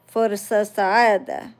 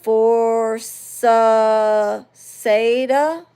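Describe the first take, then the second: First: It is said with a native Arabic accent. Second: It is said with a foreign, non-Arabic accent.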